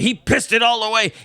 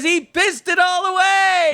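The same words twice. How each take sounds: First: It is said in an angry tone. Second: It is said in a happy, cheering tone.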